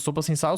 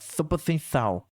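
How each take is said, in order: First: The s sounds are plain hissing s sounds. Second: The s sounds are lisped with the tongue out.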